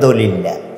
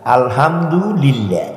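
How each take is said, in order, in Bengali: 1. শব্দটি সংক্ষেপে বলা হয়, শুরুর অক্ষরগুলো বাদ দেওয়া হয়। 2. শব্দটি সব অক্ষর সহ পুরোটা বলা হয়।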